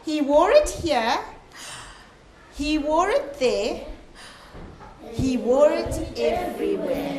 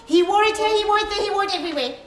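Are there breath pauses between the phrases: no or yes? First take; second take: yes; no. First: A breath pause comes after each phrase. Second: The phrases run together without breath pauses. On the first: The speaker calls it right. "this little thing here means I have to breathe" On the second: The speaker calls it wrong. "I don't say"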